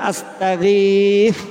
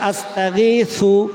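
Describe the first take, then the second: First: The word ends on a stopped consonant. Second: The word ends with an added vowel sound. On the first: The speaker calls it right. "আস্তাগীথু পড়বেন না" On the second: The speaker calls it wrong. "শেষের হরফে থামলে সাপের সু আসে"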